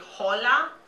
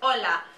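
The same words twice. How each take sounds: First: The h at the start is pronounced. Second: The h at the start is silent. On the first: The speaker calls it wrong. "do I say hola? No" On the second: The speaker calls it right. "you don't hear the H at the beginning of the word"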